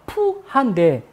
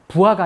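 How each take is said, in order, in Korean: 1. 이름은 강한 거센 p 소리로 시작합니다. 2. 이름은 부드럽고 약간 거센 b 소리로 시작합니다. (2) "부하가 아니라"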